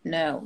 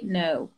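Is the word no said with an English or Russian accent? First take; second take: English; English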